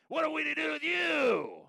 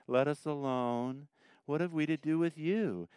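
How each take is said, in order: First: High, screeching demon voice; demonic voice. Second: Mild mock reading. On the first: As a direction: shriek it like a cornered demon. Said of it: "here's my demonic voice". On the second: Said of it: "let me do the Toby thing". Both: Shown as a demonstration.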